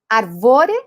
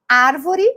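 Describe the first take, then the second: First: The stress is on the second syllable. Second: The stress is on the first syllable. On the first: The speaker calls it wrong. "vai pôr a sílaba tônica em todas as sílabas" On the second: The speaker calls it right. "ela é uma proparoxítona"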